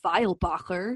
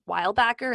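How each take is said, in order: First: The name is said with a German pronunciation. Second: The name is said with an English pronunciation. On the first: This is how the name is supposed to be said. "is supposed to be" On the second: This is how the speaker actually says her name. "my name"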